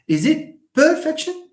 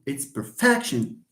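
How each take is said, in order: First: Perfection stressed wrongly, PER-fection, rising pitch high; wrong stress, quizzing. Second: Perfection said slower, stress on -fec-; correct stress. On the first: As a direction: test students with a wrong version of perfection. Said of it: "How do you pronounce this?". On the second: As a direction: give the right version of perfection. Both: Shown as a demonstration.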